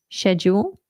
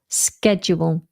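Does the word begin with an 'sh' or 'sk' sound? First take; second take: sh; sk. First: The word begins with a soft 'sh' sound. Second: The word begins with a hard 'sk' sound. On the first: "in British English, we say shed, like a shed in the garden, nice and soft" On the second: "In American, it's sk with a k"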